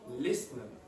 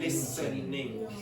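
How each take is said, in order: First: The word ends in a shortened 'in' sound. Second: The word ends in a full 'ing' sound. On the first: "you say listening" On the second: "you don't say listening"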